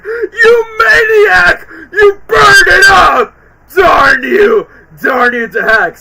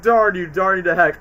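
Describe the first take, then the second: First: Much higher, loud, slow enraged screaming; furious mock yell. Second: Said in the usual way. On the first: Alex screams at Melman, hammed-up fury. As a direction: scream at the arsonist. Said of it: "Alex was like". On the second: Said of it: "when Alex says".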